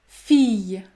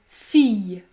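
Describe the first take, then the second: Both takes have the same delivery.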